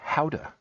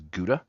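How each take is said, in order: First: The word begins with a breathy h-like sound. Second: The word begins with a hard g sound. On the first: This is the technically correct pronunciation. "technically that is pronounced Houda" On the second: This is the common American pronunciation. "most people in the United States pronounce it as Gouda"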